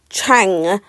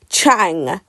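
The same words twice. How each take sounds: First: The word begins with a ch sound. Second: The word begins with a ch sound.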